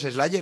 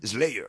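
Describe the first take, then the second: First: The name is said with a Spanish pronunciation. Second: The name is said with an American English pronunciation. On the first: This is how people here say it. "yo igual creo que aquí todavía han sido los Slayer" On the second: This is how people in America say it. "igual te vas a Yankee Land y le llaman Slayer o algo así"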